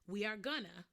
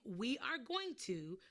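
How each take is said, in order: First: Going to is merged into one short word. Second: Every word is said fully and separately. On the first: "we sometimes say we are gonna" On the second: "instead of saying we are going to"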